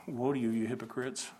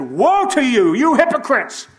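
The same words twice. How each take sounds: First: Quiet woe. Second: Loud, high, furious denunciation; angry woe. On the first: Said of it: "Did he say it like that?". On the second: Preacher acting out an angry Jesus, furious shout. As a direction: bellow it like an enraged prophet. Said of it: "Did he said". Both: Shown as a demonstration.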